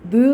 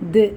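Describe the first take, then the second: First: The sound is pushed upward as it ends. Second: The sound drops downward as it ends. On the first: The speaker calls it wrong. "ഇങ്ങനെ ഉയർത്തി പറയണ്ട" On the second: The speaker calls it right. "അത് താഴോട്ടേക്ക്"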